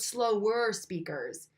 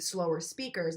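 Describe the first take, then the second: First: "slower speakers" stretched out slowly; slower delivery. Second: Said in the usual way. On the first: Shown as a demonstration. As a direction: draw out "slower" to show an unhurried pace. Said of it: "not super slow, but slower speakers". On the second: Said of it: "perceive slower speakers".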